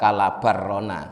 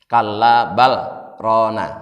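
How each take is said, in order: First: The l sound merges into the following r. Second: The l sound is pronounced clearly before r. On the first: The speaker calls it wrong. "Bukan kalla barrona" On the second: The speaker calls it right. "lamnya jelas"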